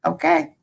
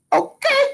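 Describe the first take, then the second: First: Said in the usual way. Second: Attempted rapper catchphrase, pitched very high. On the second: Shown as a demonstration. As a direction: squeal a rising, playful celebrity imitation. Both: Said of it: "I wish I could do the [name]".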